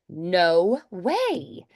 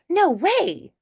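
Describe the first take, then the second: First: It is said at a slower pace. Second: It is said at a faster pace.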